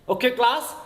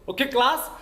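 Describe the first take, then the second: The two takes are said the same way.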